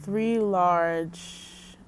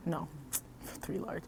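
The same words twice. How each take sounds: First: Said in the usual way. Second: Softer, with a laugh on "no"; laughing self-correction. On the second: Shown as a demonstration. Correcting her food order to the viewers with a soft laugh. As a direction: chuckle and fix "three large" under your breath.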